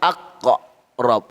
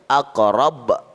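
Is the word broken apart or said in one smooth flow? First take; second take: broken apart; smooth. First: The word is broken apart after the q sound. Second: The word flows smoothly with a bounce at the end. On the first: The speaker calls it wrong. "Jangan baca aqqa rob, salah" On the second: The speaker calls it right. "Jalan seperti air mengalir ... Agak pantulannya ada"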